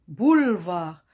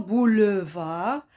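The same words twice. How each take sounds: First: The middle E is silent and dropped. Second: The middle E is pronounced as a vowel. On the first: The speaker calls it right. "on dit boulevard" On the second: The speaker calls it wrong. "On ne dit pas boulevard"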